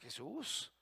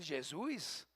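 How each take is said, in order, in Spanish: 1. El nombre tiene una pronunciación española. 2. El nombre tiene una pronunciación portuguesa. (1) "somos mexicanos, aquí decimos Jesús" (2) "y en Brasil Jesús"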